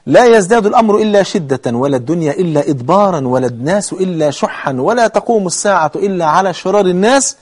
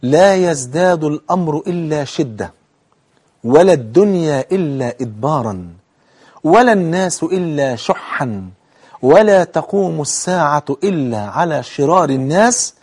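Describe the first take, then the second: First: Clauses run together without pauses; repeated hadith recitation. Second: Slow, measured recitation; drawn-out formal Arabic, each clause set apart; careful hadith recitation. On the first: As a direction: recite in one continuous flow. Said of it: "تعيده تاني". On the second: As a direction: recite phrase by phrase with long pauses. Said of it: "خد بالك، ركز في الحديث". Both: Shown as a demonstration.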